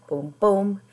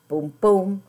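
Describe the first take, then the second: Both takes have the same delivery.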